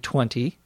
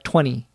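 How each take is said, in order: First: It is said slowly with a clear T. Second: It is said quickly with the T dropped. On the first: This is slow, careful speech. "If you were speaking more slowly, more carefully, you could say 20" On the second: This is fast, informal conversation. "It's almost like you pronounce it T-W-E-N-Y without the T. That would be in fast conversation"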